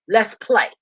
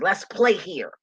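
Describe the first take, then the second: First: Higher, louder call to play; eager call. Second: Said in the usual way. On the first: Real, not acted. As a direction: sing it out like an invitation. Repeats the invitation, louder and higher.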